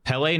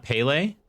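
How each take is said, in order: First: Pele said as PELL-ay, short first e; corrected pronunciation. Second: Pele said as PAY-lay, long first vowel; rejected pronunciation. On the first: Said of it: "Pele, not Pele". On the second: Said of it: "not Pele". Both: Shown as a demonstration.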